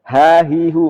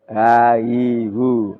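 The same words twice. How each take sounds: First: Each syllable begins with a clear breathy h. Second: Each syllable begins with a weak, unclear h. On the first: The speaker calls it right. "harus jelas" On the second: The speaker calls it wrong. "enggak boleh ha, hi, hu"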